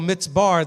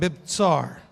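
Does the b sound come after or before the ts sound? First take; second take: after; before. First: The b sound comes after the ts sound. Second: The b sound comes before the ts sound. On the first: The letters of the unfamiliar word got reversed. "mix some of the word, the letters up" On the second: The word is read as it is written. "when it says mibtsar"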